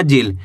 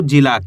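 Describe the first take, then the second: First: जिल cut off at the l; final aa dropped. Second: जिला with a long aa after the l; drawn-out ending. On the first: Teacher warning against the wrong reading, जिल without final aa. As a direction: end जिल on the consonant, no aa. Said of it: "ऐसे नहीं पढ़ना". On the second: Teacher explaining the aa sign, जिला with its ending drawn out. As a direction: stretch the final aa of जिला. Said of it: "खींच के पढ़ेंगे". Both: Shown as a demonstration.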